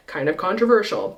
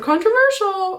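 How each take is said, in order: First: Said in the usual way. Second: Exaggerated emphasis on controversial; stress on controversial. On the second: Shown as a demonstration. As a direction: lift the word controversial up high.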